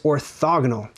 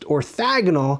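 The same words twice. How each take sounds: First: The second vowel is an 'o' sound. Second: The second vowel is an 'a' sound. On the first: The speaker calls it right. "but it's orthogonal" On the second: The speaker calls it wrong. "mispronounced orthogonal, ... they throw an A in there instead of an O"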